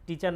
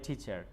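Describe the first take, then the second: First: The t is plain, without a breath of air. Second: The t is breathy, with a puff of air. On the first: The speaker calls it wrong. "টিচার না বলে" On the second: The speaker calls it right. "ঠ sound দিয়ে বলবো"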